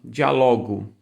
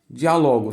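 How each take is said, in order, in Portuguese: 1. A tônica cai na penúltima sílaba. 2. A tônica cai na antepenúltima sílaba. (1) "que não tem acento será é, paroxítona" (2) "a palavra aqui é diálogo"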